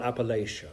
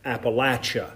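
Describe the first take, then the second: First: Appalachia with a long a, lay-shuh; the outsiders' Appalachia, lay-shuh; wrong Appalachia. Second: Appalachia with a short a, latch. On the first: Preacher mocking outsiders, Appalachia with long lay-shuh. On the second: Preacher correcting the congregation's pronunciation, Appalachia said æ-latch-uh. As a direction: Appalachia said as in the Mountain South, æ-latch-uh. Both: Shown as a demonstration. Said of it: "not Appalachia".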